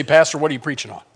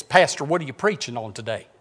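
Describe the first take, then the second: First: Said in the usual way. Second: Imitating Sheila. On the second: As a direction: draw out the question like Sheila asking her pastor. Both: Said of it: "Only she talked like this".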